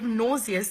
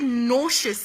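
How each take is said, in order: First: It is said in the speaker's usual pronunciation. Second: It is said in an adopted, imitated pronunciation. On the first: The speaker calls it right. "instead of nauseous" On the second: The speaker calls it wrong. "I said nauseous ... though I knew it wasn't right"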